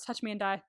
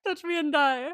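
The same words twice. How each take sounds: First: Quietly cold, quoting Zara's brush-off; deadpan threat. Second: Higher and louder through laughter; giggling it out, delighted by the line; laughing repeat. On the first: Quoting Zara's brush-off to a smitten fan, in deadpan. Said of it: "And she just immediately goes". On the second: Repeating Zara's threat for a friend, laughing. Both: Retold or imitated.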